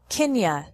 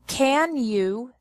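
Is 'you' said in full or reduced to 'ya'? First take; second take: reduced; full. First: You is reduced to ya. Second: You is said in full.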